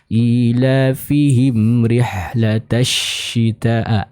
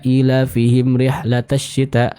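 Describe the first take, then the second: First: The sh sound has clearly spreading air. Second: The sh sound has little spreading air. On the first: The speaker calls it right. "Terdengar dengan jelas udara dan suara udara yang terkumpul dalam mulut kita" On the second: The speaker calls it wrong. "Ini kurang tepat karena sifat tafasyinya masih kurang jelas"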